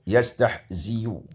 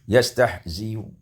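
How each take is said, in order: Both takes have the same delivery.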